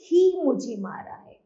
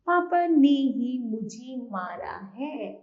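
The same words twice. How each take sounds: First: "ही" punched and louder than the rest; stress on ही. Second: Slow sentence with "पापा" said most prominently; stress on emphasis. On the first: Teacher answering which word is stressed, punching "ही". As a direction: hit the word "ही" hard, let the rest fall. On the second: Teacher demonstrating emphasis to students, stressed "पापा". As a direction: say it slowly, leaning on "पापा". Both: Shown as a demonstration. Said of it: "तो किस शब्द पर बल दिया गया?".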